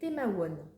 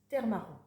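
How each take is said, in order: First: It is read as spelled, sounding like 'mawon'. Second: It is said sounding like 'terre marron'. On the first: The speaker calls it wrong. "c'est marqué Temawan" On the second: The speaker calls it right. "C'est pas comme ça qu'on le dit, c'est terre marron"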